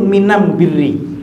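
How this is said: The article before birri is pronounced with an m. This is the local dialect form of one tribe. "Logatnya kaum al-Asy'ariyin"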